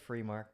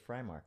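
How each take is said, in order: First: The first syllable sounds like 'free'. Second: The first syllable sounds like 'fry'. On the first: Half the family uses this form. "Half my family says free mark" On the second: The other half of the family uses this form. "the other half says fry mark"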